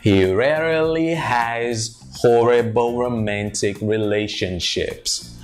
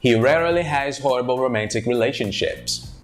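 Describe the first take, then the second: First: The sentence is said slowly and carefully. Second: The sentence is said at natural connected speed.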